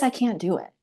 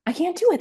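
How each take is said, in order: First: A mildly voiced first "I can't do it"; mild despair. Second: "I can't do it" said much higher as the plea breaks; rising despair. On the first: To herself on the toilet, understated despair. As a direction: imitate starting to give up, still held back. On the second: Retold or imitated. To herself mid-contraction, a much higher mock despairing plea. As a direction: imitate the second cry tipping into panic. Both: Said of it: "I didn't say any of this out loud".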